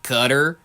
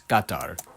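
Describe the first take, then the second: First: The name is said in a fully anglicized way. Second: The name is said in a moderately anglicized way. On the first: The speaker calls it wrong. "Walmartifies it even further to pronounce it Qatar" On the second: The speaker calls it right. "the middle ground world of anglicizing Middle Eastern words"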